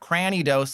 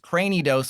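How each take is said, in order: First: The first syllable sounds like 'gran' in granny. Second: The first syllable sounds like 'cray' in cranium. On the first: The speaker calls it wrong. "It's not Cranidos like a like a granny" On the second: The speaker calls it right. "It's Cranidos like a cranium"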